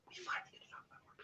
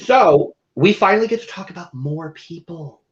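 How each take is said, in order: First: Whispered repeat of the line. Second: Said in the usual way. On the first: Shown as a demonstration. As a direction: breathe it out without voice.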